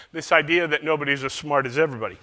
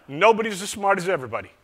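First: Said in the usual way. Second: Put-on quick, higher Southern accent on "nobody's as smart as everybody"; Southern accent imitation of "nobody's as smart as everybody". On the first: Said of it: "my attempt at one". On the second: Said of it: "I'll continue with the Southern accent".

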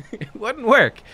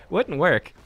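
First: Laughing it off. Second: Said in the usual way. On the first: Real, not acted. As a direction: laugh through the words. Laughing after the bit.

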